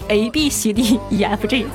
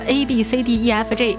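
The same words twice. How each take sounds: First: The letters are said with a Northeastern Chinese accent. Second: The letters are said with standard pronunciation. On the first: This is how the speaker says it. The speaker calls it wrong. "我只是发音难听点，没办法，东北人嘛，我是ABCDEFG" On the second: This is how other people say it. The speaker calls it right. "人家都是ABCDEFG"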